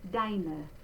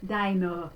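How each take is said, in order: First: The final vowel is bright and forward. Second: The final vowel is dark and far back. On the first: The speaker calls it right. "it's brighter and it's further forward" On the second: The speaker calls it wrong. "if we said this kind of English, uh, it would be deine, and it would, that uh would fall very far back"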